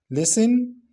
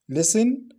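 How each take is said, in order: No difference in how they are said.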